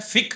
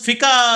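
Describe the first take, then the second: First: The word ends on a consonant, no vowel. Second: The word ends with an added 'a' vowel. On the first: The speaker calls it right. "फिक है" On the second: The speaker calls it wrong. "ये लफ्ज फिका तो लफ्ज गलत है"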